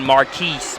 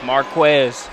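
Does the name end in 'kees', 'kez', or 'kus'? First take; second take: kees; kez. First: The name ends with a 'kees' sound. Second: The name ends with a 'kez' sound. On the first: "I'm often Marquise"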